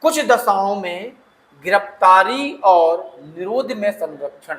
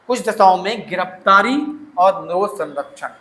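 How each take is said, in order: First: Each word of कुछ दशाओं में गिरफ्तारी और निरोध में संरक्षण said slowly for notes; teacher spelling out the heading of Article 22 slowly for the class; slow dictation. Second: Said in the usual way. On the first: Shown as a demonstration. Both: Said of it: "अनुच्छेद बाईस क्या बोलता है?".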